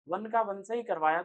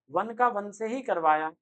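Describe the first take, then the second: First: Said in the usual way. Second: वन का वन stressed, raised and louder; emphatic teacher stress on वन; louder first take. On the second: Shown as a demonstration. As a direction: hit वन का वन से ही firmly. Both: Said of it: "repeated for emphasis".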